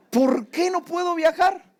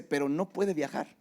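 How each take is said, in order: First: Loud, high, slow protest; a much louder, higher cry of frustration; exasperated outcry. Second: Said in the usual way. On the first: Retold or imitated. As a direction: stretch it out in loud disbelief. Pastor reacts to clerk's refusal.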